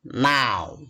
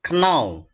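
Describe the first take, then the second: First: The word begins with a plain N sound. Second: The word begins with an audible K sound. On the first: The speaker calls it right. "tapi now" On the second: The speaker calls it wrong. "K-nya tidak dibaca atau dilafalkan. Bukan know"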